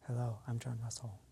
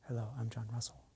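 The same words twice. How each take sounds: Both takes have the same delivery.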